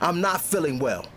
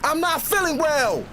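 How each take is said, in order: First: It is spoken in a normal voice. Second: It is screamed very loudly. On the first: "say it with me" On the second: "Scream it with me"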